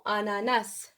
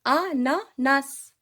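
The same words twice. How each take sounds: First: Said in the usual way. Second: "Ananas" slow, in three separated beats; syllable by syllable. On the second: Shown as a demonstration. Teacher modelling the word for pupils, slow separated syllables. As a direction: break "Ananas" into a, na, nas. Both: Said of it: "Alors, suivez-moi".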